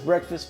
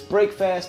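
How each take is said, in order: First: It is said as one blended word. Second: It is said as two separate words. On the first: This is the everyday name of the meal. "We pronounce it as breakfast" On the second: The meal breaks the overnight fast. "but it's break fast because we're breaking the fast"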